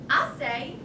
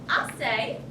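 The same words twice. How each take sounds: The two takes are said the same way.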